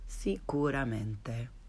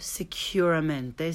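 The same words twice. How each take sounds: First: The u is a pure 'oo' sound. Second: The u is said like English 'you'. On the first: The speaker calls it right. "and then the correct way" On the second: The speaker calls it wrong. "the mispronounced way first"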